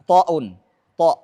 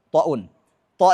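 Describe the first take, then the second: No difference in how they are said.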